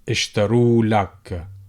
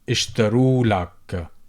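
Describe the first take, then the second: First: The vowel before the l sound is dropped. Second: The vowel before the l sound is dropped.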